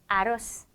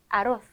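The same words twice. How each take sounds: First: The final z is pronounced as a sharp s. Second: The final z is pronounced as a th sound. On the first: This is how it is said in Latin America. "중남미에서는 쌍시오" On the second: This is how it is said in Spain. "또는 아로스 해주시면 되는 거예요"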